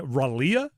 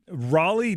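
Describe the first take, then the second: First: The word ends with an added 'uh' sound. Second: The word ends with a plain 'lee' sound. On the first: The speaker calls it wrong. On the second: The speaker calls it right.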